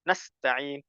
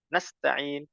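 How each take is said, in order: The two takes are said the same way.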